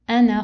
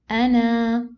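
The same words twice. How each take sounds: First: The final vowel is short, not drawn out. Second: The final vowel is long and drawn out. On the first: The recitation continues past this word. "I didn't prolong. Okay, so I cancelled the alif" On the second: The recitation stops on this word. "If I want to stop, okay"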